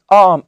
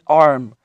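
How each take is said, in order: First: The R sound is very mild and soft. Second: The R sound is strong and clearly pronounced. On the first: The speaker calls it right. "It's arm" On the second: The speaker calls it wrong. "she's not doing arm"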